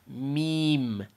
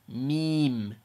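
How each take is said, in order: The two takes are said the same way.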